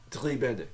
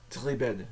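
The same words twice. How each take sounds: The two takes are said the same way.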